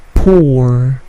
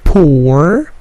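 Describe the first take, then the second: First: "pour" with a gentle P and little stress; soft P. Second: "pour" with a heavy P burst, said slowly; big P. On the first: Teacher showing the right, gentle P in "pour". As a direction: ease the P in "pour", no punch. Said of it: "plosifnya tidak terlalu besar". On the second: Teacher showing the wrong, heavily puffed P in "pour". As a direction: overdo the P in "pour". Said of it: "plosifnya tidak terlalu besar, bukan pour". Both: Shown as a demonstration.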